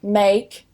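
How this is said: The vowel is the gliding ake sound. "instead of an ake"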